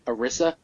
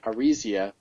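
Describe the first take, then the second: First: The name ends without an 'ee' sound before 'a'. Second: The name has an 'ee' sound before the final 'a'. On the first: "the first time I saw her name, I pronounced it in my head" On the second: "then I realized that there was an I in there"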